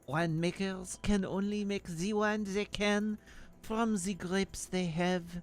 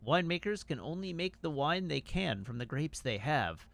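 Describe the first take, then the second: First: It is read in a fake French accent. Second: It is read in the speaker's normal accent. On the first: The speaker calls it right. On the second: The speaker calls it wrong.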